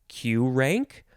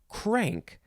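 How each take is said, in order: First: It starts with the letter name Q. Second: It starts with a plain K sound. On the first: "Is it Q rank" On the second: "or is it crank? ... I'm pretty sure it's crank"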